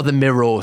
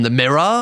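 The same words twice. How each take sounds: First: The Mirror with a Geordie vowel, Mirroh; Geordie accent. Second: Said in the usual way. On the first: Shown as a demonstration. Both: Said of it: "Mirror in a Geordie accent".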